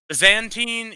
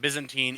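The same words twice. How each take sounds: First: It is said with a European pronunciation. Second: It is said with an American pronunciation. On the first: "if you're from Europe" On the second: "if you're from any functional part of the world that speaks original English"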